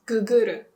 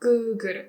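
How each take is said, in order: First: Guguru with the first gu cut short; short vowel. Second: Guguru as guuguru, first vowel held; long vowel. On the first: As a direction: model slangy Guguru without the long vowel. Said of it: "It becomes". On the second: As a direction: model Guguru with a stretched guu. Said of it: "long vowel sound". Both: Shown as a demonstration.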